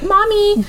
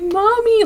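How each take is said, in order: First: It is said in a whiny, childish way. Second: It is said in a devastated, upset way.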